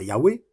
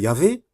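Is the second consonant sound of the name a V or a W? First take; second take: W; V. First: The name is said with a W sound. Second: The name is said with a V sound. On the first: "j'aurais mis un W à la place du V, mais bon, pour dire Yahweh" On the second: "la forme courante de Yahvé"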